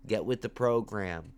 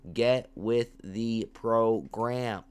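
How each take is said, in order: First: Said in the usual way. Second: Slow emphatic repeat. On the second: Shown as a demonstration.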